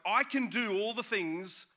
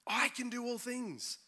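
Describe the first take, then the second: First: The word do is stressed. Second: The word I is stressed. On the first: The focus is on what the speaker does. "the emphasis is now on us doing" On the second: The focus is on the speaker's own ability. "the emphasis is on the fact that I"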